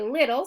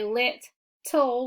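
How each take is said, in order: First: The word is said smoothly as one unit. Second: The word is broken into two separate parts. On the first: The speaker calls it right. "we say little" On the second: The speaker calls it wrong. "we don't say lit tool"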